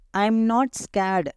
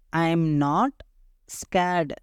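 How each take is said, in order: First: Said in the usual way. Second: "I am not ... scared", long pause before scared; slow, split for repeating; say-along drill. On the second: Shown as a demonstration. Teacher leading learners to say it along, slowly in parts. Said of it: "என் கூட சேர்ந்து சொல்லுங்க".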